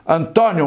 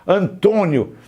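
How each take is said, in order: First: The stressed o is an open vowel. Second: The stressed o is a closed vowel. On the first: The speaker calls it right. "um acento agudo no Antônio" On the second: The speaker calls it wrong. "quando você coloca Antônio com acento circunflexo"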